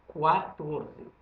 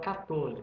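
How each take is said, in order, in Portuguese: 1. Começa com um som de kw. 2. Começa com um som de k simples. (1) "fala quatorze" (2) "Mas não fala quatorze"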